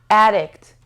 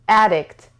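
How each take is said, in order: Both takes have the same delivery.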